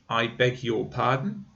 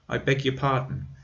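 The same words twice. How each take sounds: First: Every word is pronounced fully and strongly. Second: The word 'your' is reduced to a weak sound. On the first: "When I'm saying each word strongly" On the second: "in the normal way, ... Your sounds like y"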